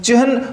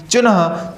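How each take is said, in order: First: चिन्ह with ह before न; correct pronunciation. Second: Slow चिन्ह with a full न; wrong pronunciation. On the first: Teacher showing the children the right चिन्ह. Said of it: "इसको हम चिन्ह उच्चारित करेंगे". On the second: Teacher slowly saying the wrong चिन्ह for the children. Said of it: "चिन्ह हमारा गलत होता है". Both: Shown as a demonstration.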